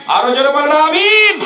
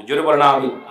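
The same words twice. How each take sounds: First: Rousing shout. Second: Said in the usual way. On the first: Real, not acted. Preacher demanding a louder Amin from the crowd, rousing shout. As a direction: whip the crowd into a louder response.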